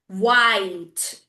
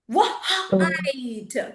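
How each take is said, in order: First: The w glides straight into the vowel. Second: A separate wah sound comes before ite. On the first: The speaker calls it right. "It's only the one time wah" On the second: The speaker calls it wrong. "No, it's not a wah-ite, right?"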